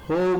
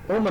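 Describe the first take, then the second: First: The vowel is long and drawn out. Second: The vowel is short and clipped. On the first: The speaker calls it right. "ಹೋಮ್ ಅಂತ ಕರಿತೀವಿ" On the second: The speaker calls it wrong. "ಹೋಮ್ ಅನ್ನಲ್ಲ"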